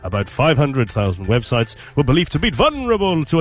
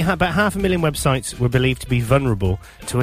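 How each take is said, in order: First: It is read in a put-on announcer voice. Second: It is read in the speaker's normal voice.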